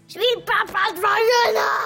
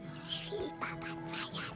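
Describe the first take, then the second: First: It is said loudly. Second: It is said at a normal, soft volume.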